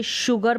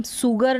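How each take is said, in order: First: शुगर starting with a "sh" sound; correct pronunciation. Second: सुगर starting with a plain "s"; sharp "s" at the start of सुगर, no "sh"; wrong pronunciation. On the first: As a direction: say शुगर as SHOO-gur. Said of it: "शुगर पढ़ते हैं". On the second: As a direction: say सुगर as SOO-gur. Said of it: "हम सुगर नहीं पढ़ते". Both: Shown as a demonstration.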